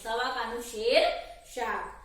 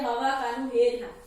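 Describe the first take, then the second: First: The s and sh sounds are kept as is. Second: The s and sh sounds become h sounds. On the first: This is the standard way to say it. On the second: This is how people from Surat say it.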